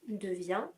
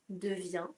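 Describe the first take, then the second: Both takes have the same delivery.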